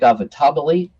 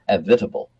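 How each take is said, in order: First: The name ends with an extra final vowel syllable. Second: The name ends in 'table' without a final vowel. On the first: This is how the spelling suggests it. The speaker calls it wrong. "It looks like Avitabile. Some might pronounce it that way" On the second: This is how the man himself said it. The speaker calls it right. "but it was Tom Avitable"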